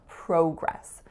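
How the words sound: It is said the Canadian way.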